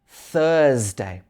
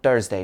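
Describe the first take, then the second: First: The word starts with a th sound. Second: The word starts with a plain t sound. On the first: The speaker calls it right. "it should be Thursday" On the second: The speaker calls it wrong. "it's not Thursday"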